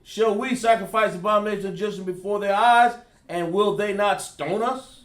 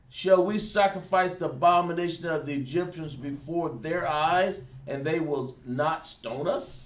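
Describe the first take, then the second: First: It is read at a normal, quicker pace. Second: It is read slowly.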